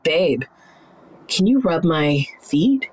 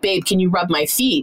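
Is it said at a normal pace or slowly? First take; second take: slowly; normal. First: It is said slowly, low, with pauses. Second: It is said at a normal pace.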